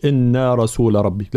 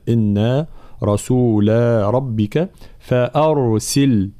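First: إنا رسول ربك run on with no long alif after رسول; faulty quicker إنا رسول ربك; wrong short vowel. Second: إنا رسول ربك فأرسل recited slowly, long a held after رسول; slow correct tajweed recitation; full dual madd. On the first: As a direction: clip the end of رسول straight into ربك. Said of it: "ما نقولش". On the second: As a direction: stretch the vowel ending رسول before ربك. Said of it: "لا". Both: Shown as a demonstration.

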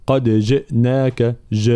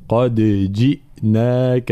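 First: قد جئناك with the i of جئناك loosened toward e; faulty recited قد جئناك; wrong slack kasra. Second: قد جئناك with echoed dal and a full i in جئناك; slow correct recited قد جئناك; clear kasra. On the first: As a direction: blur the vowel after ج into a schwa. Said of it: "لا نقول". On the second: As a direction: bounce the د, then say جئناك with a sharp i. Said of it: "هكذا". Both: Shown as a demonstration.

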